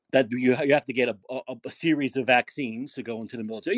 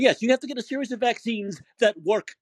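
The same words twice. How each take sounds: First: Much lower, toned-down restating; low recited excuse. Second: "that work" stressed as the key condition; emphatic rebuttal. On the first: Retold or imitated. Host restating Kirby's military excuse, low-voiced. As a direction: recite the opponent's line down low. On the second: Real, not acted. Host correcting Kirby's excuse, stress on "work". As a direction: concede with "Yes", then hit "work" hard.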